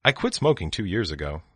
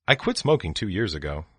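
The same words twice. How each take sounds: The two takes are said the same way.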